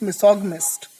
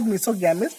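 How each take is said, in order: First: Misogynist said as mi-SOG-mist, hard g, stress on SOG; correct pronunciation. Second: Misogamist said as miso-GAM-ist, with a full a in gam; wrong pronunciation. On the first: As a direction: squeeze misogynist into three syllables, mi-SOG-mist. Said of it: "this is misogynist". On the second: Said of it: "No, this is not". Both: Shown as a demonstration.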